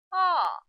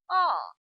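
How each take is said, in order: First: The pitch falls sharply from high to low. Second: The same.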